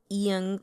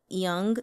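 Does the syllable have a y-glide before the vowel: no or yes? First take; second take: yes; yes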